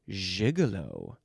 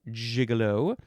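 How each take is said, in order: First: It is pronounced a fancy French way. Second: It is pronounced the plain English way.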